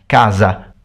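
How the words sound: The middle consonant is a voiced z sound. This is the northern Italian and Portuguese way. "northern Italian and Portuguese"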